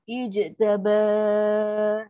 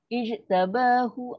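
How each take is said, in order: First: The ending is stretched out long before stopping. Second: The ending is short with a short final vowel. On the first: The reader stops at this word. "Tadi panjang dua atau dua, empat atau enam harakat ketika wakaf nak berhenti" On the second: The reader continues to the next word. "Kalau sambung satu je"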